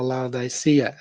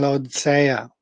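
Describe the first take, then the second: First: "Laodicea" as lau-dye-SEE-uh; softer, lower "Laodicea", sounded out as lau-dye-see-uh; alternative pronunciation. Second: "Laodicea" run together, middle squeezed short; "Laodicea" with the middle syllables swallowed; first pronunciation attempt. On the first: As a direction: say "Laodicea" with a clear "dye" in the middle. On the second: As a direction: say "Laodicea" quickly as low-DSEE-uh. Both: Shown as a demonstration. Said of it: "I don't know how you say".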